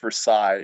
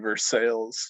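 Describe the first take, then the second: First: It is said the way one would expect. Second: It is said the actual local way. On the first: This is how an outsider would guess it. The speaker calls it wrong. "you would think it's Versailles" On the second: This is how the place name is really said. The speaker calls it right. "It's actually Versailles"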